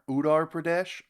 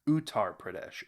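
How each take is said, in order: First: The T is softened, sounding like a D. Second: The T is crisp and clearly enunciated. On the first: Someone else says it this way. "He says he calls it Udar" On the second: This is how the speaker has always said it. "I've always enunciated the T's"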